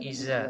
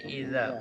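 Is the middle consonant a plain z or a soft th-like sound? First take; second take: plain z; th-like. First: The middle consonant is a plain buzzing z. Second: The middle consonant is a soft th-like sound. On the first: The speaker calls it wrong. "Bukan iza" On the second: The speaker calls it right. "tapi idza, huruf za ... ujung lidahnya keluar sedikit"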